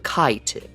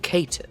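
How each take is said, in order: First: The word is pronounced literally, just as it looks. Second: The word is given its accepted, non-literal pronunciation. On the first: The speaker calls it wrong. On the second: The speaker calls it right.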